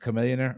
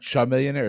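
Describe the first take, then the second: First: The name begins with a 'k' sound. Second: The name begins with a 'ch' sound. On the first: The speaker calls it right. "it's Chameleonaire" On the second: The speaker calls it wrong. "It's not Chameleonaire"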